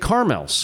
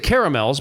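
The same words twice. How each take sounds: First: The middle 'a' vowel is dropped entirely. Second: The middle 'a' vowel is clearly pronounced. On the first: "But a lot of people say caramels" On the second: "I say caramels because there's an A between the R and the M"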